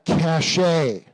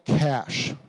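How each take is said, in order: First: The word is said as two syllables. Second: The word is said as one syllable. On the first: The speaker calls it wrong. "not a cache" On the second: The speaker calls it right. "It's called a cache"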